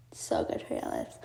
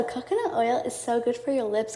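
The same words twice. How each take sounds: First: Whispered, soft and much lower; a confiding whisper of the same line; whispered aside. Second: Said in the usual way. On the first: Real, not acted. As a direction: breathe the tip out like a secret to the viewers. Repeats the tip as an aside.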